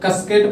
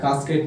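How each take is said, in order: First: The first vowel is a short 'uh' sound. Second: The first vowel is a long 'ah' sound. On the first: The speaker calls it wrong. "कसकेट पढ़ेंगे" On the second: The speaker calls it right. "उस ए का उच्चारण हमारा आ होता है"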